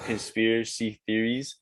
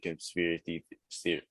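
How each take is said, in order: First: "Conspiracy theories" said slowly, each syllable in place; slow down and get "Conspiracy theories" out cleanly; careful retry. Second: Conspiracy theory stumbled over, syllables mashed together; tripping over words. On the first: Guest redoing "Conspiracy theories" after a stumble, careful and slow. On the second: Guest botching "conspiracy theory" mid-story, tongue-tied. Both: Real, not acted. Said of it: "I can't even talk".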